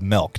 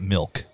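First: The vowel sounds like the e in bed. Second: The vowel sounds like the i in bit. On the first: This is how someone else says it. "She says milk" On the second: This is the usual way to say it. "not milk"

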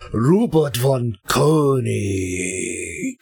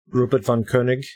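First: It is said with more energy, louder. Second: It is said flatly, with low energy.

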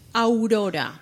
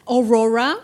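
First: The name is said with a Spanish accent. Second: The name is said with an American accent. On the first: "that's Aurora. 100% correct" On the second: "and there they said Aurora, something like this"

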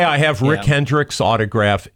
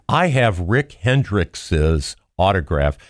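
First: The possessive adds no extra syllable after Hendricks. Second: The possessive adds an extra "-es" syllable after Hendricks. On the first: The speaker calls it right. "It sounds perfectly fine" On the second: The speaker calls it wrong. "I wouldn't say, ... because it just sounds stupid"

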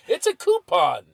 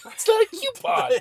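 First: The first syllable sounds like 'coo'. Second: The first syllable sounds like 'cue'. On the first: The speaker calls it right. "It's C-O-U-P" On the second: The speaker calls it wrong.

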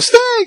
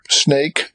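First: It is said with excitement and alarm. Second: It is said calmly, without excitement. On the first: The speaker calls it right. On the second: The speaker calls it wrong.

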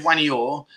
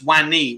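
First: The word ends with an extra 'or' sound. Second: The word ends on a plain 'ee' sound. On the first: The speaker calls it wrong. "So you wouldn't say Wanior" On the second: The speaker calls it right. "It's Wani"

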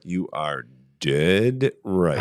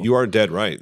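First: It is said more slowly. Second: It is said at normal speed.

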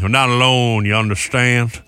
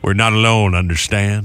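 First: It is said with a Southern twang. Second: It is said in a plain accent.

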